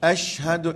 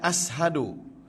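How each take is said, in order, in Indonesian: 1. Konsonan sebelum 'hadu' itu 'sh'. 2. Konsonan sebelum 'hadu' itu 's' biasa. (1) "asyhadu S Y" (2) "jangan ashadu"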